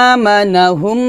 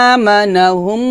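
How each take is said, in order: No difference in how they are said.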